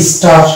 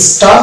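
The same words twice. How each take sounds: First: স্টার ending in a heard R; American, R sounded. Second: স্টার ending on a long open AA; British, silent R. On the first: Teacher shows American English star, R sounded. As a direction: say স্টার with the final R kept. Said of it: "American English হয়ে যাবে". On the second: Teacher shows British English star, silent R. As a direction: say স্টার as staa, dropping the R. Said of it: "English মানে British". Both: Shown as a demonstration.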